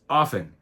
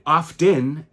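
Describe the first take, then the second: First: The T sound is silent. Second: The T sound is clearly pronounced. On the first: "if you spoke proper grammar" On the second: "enunciated the T"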